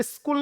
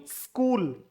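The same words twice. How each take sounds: First: स्कूल said as "iskool", higher; mock the common "iskool" error, pitched higher; wrong pronunciation. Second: स्कूल said "skool" with no vowel before the s; correct pronunciation. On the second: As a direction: start स्कूल straight on the s cluster. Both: Shown as a demonstration. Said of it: "स्कूल नहीं".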